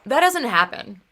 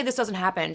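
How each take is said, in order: First: Louder, higher quote of her flat denial; dismissive denial. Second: Said in the usual way. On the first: Retold or imitated. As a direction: lightly mimic her brushing it off. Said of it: "and she goes". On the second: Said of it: "she actually didn't say".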